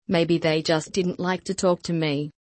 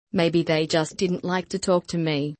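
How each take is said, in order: Both takes have the same delivery.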